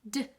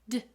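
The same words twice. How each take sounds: No difference in how they are said.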